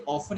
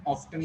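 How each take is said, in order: First: "often" as OFF-un; T-less "often"; silent-T variant. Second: "often" as OFF-tun; "often" with audible T; sounded-T variant. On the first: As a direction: leave the T out of "often". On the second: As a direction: keep the T in "often". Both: Shown as a demonstration. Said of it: "often is correct and often is wrong".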